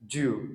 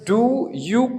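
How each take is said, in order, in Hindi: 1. दोनों शब्द मिलकर एक अक्षर बन जाते हैं। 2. दोनों शब्द अलग-अलग अक्षरों में बोले जाते हैं।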